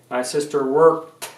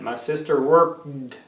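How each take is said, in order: First: The word ends with a T sound. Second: The word ends with a clear D sound. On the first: "Some people will pronounce it like a T" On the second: "You need to hear that D, D at the end"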